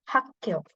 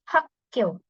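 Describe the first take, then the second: The two takes are said the same way.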